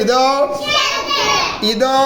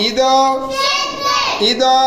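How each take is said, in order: The two takes are said the same way.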